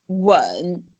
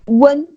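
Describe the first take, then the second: First: The pitch dips down, then rises up. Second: The pitch stays level and unchanged. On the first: "you nod it down and then you nod it up" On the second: "It's one strike but neutral. It's the first tone"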